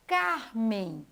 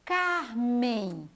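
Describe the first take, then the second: First: Said in the usual way. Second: Drawn-out name. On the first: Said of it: "O primeiro som do nome Carmen". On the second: Shown as a demonstration. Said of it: "E aqui".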